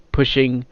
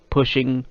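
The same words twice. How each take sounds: The two takes are said the same way.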